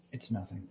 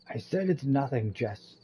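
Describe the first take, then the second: First: Low, soft brush-off; quiet dismissal. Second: Testy, firmer brush-off; irritated insistence. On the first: Kyle dropping his confession to Jess, quietly dismissive. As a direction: back down quietly from what you meant to say. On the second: Kyle pressed by Jess to confess, irritably insistent. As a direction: insist firmly to shut down the questioning. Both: Acted.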